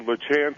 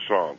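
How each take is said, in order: First: It is said in a Missouri American way. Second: It is said in a more French way.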